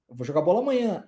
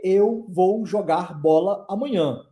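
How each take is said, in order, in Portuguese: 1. As palavras são faladas juntas, com sons ligados. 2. Cada palavra é falada separadamente, com pausas. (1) "Vou falar como?" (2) "Eu não vou falar para você"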